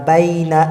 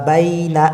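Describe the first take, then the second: Both takes have the same delivery.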